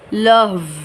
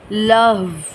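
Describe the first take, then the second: First: The word ends on a bare consonant. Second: The same.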